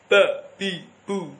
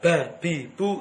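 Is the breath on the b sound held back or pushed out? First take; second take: held; pushed. First: The b sound is made with breath held back. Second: The b sound is made with breath pushed out. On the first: The speaker calls it right. "bukan didorong tetapi tertahan. Jahr syiddah" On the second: The speaker calls it wrong. "Kalau ba bi bu ini saya dorong"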